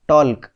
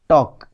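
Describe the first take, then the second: First: The L sound is pronounced in the word. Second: The L sound is left out of the word. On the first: The speaker calls it wrong. "हम इसको ऐसे नहीं बोलते टॉल्क" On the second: The speaker calls it right. "हम इसको pronounce करते हैं टॉक"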